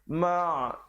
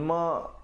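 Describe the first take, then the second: First: The syllable ends with a throaty ain sound. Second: The syllable ends with a glottal stop. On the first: The speaker calls it right. "huruf ain ya" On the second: The speaker calls it wrong. "ma jadi huruf hamzah"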